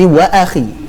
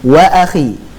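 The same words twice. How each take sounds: The two takes are said the same way.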